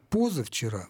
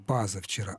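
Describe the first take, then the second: First: The first syllable has a full 'o' vowel. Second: The first syllable has an 'a' vowel. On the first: The speaker calls it right. "а вот «позавчера» мы можем сказать" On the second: The speaker calls it wrong. "Мы не скажем «пазавчера»"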